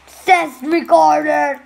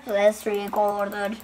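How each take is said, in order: First: Loud, drawn-out playful call; loud announcing. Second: Low, slow put-on voice; low echo. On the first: Pretend. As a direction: call it out slowly and loudly. Same name said two contrasting ways. (yüksek sesle, uzatarak seslenme) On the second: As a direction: drop low and draw it out. Low echo of the first take. (kalın, yavaş yankı gibi)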